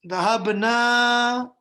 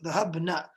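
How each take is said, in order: First: The vowel after the n is drawn out long. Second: The vowel after the n is kept very short. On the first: It gives the word a different meaning. The speaker calls it wrong. "if you say ذهبنا, that changes the meaning" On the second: It means the women went. The speaker calls it right. "keep it very short"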